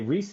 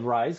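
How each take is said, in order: First: The name does not sound like rise. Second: The name sounds like the word rise. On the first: The speaker calls it right. "Tonight I'm in a good place and I'm going to say Rhys Thomas" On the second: The speaker calls it wrong. "I almost said rise because I've mispronounced it that way before"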